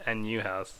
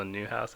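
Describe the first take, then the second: First: "N U House" with the N and U as separate letters; spelled out. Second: Said in the usual way. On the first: Shown as a demonstration. Cohost explains artist name, spelling "N U" as letters. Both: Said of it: "you pronounce it new house".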